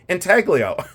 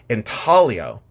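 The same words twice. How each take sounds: First: The G sound is pronounced. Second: The G sound is silent. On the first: This is how it is said in rural Ohio. "so I say intaglio" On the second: This is how it is said in Italy and the UK. "They don't pronounce the G"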